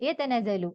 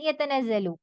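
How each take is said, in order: Both takes have the same delivery.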